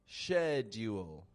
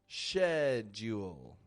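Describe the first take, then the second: First: It begins with an sh sound, British style. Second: The same.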